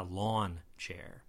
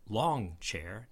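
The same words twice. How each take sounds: First: "lawn" said slowly, ending on a plain n; pronounced LAWN. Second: "long" drawn out slowly with a clear ng at the end; pronounced LONG. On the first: Ruling out a wrong reading to learners, pronounced LAWN. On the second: Explaining the French word for long, pronounced LONG. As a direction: say "long" slowly, closing on ng, not an n. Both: Shown as a demonstration. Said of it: "not a lawn chair".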